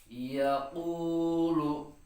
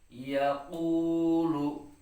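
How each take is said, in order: Both takes have the same delivery.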